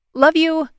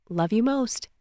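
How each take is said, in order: First: High, loud, cheery goodbye; affectionate sign-off. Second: Gentler, understated affectionate goodbye; soft fond reply. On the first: Caller ending the phone call with Aylin, cheerfully affectionate. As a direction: sing out a fond goodbye. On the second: Answering a loved one's goodbye on the phone, softly fond. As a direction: answer fondly, keeping it soft. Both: Acted.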